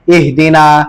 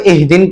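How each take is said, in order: First: The word ends in a long a vowel. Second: The word ends on an n sound. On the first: The speaker calls it right. "वकफ में इहदीना" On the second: The speaker calls it wrong. "अमूमन बच्चे इसको इहदीन पढ़ते हैं वकफ में"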